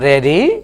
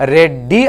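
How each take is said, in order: First: The d is single and said lightly. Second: The d is doubled and pressed hard. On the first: The speaker calls it right. "ఒత్తి పలకకూడదు" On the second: The speaker calls it wrong. "రెడ్డి అనొద్దు"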